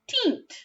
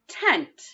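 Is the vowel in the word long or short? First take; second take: long; short. First: The vowel is a long ee sound. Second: The vowel is a short eh sound. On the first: The speaker calls it wrong. "try it with the e sound this time" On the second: The speaker calls it right. "try it with the eh sound first"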